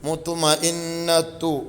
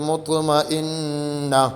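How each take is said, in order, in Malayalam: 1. ഈ വാക്ക് t ശബ്ദവും സ്വരാക്ഷരവും ചേർന്ന് അവസാനിക്കുന്നു. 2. ഈ വാക്ക് നിശബ്ദമായ h ശബ്ദത്തിൽ അവസാനിക്കുന്നു. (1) "താഇൻ്റെ മഖ്റജിൽ നിന്നാണ് ഓതുക" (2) "ഹാ ഇന് സുക്കൂൻ ചെയ്ത് നിർത്തി"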